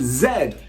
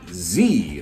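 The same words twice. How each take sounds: First: The letter is said the British way, zed. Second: The letter is said the American way, zee.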